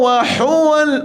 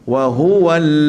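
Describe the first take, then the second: First: The h is a harsh throaty sound. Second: The h is a plain, light sound. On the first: The speaker calls it wrong. "Tapi sini salah. Orang tak suruh baca ha pedas sini" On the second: The speaker calls it right. "Sini ha simple"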